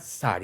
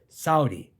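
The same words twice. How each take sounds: First: The U sound in the middle is not emphasized. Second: The U sound in the middle is emphasized. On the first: The speaker calls it wrong. "It's not" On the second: The speaker calls it right. "you must get the U emphasized"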